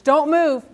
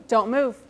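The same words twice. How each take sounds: First: Command. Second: Said in the usual way. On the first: Shown as a demonstration. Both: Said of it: "body language".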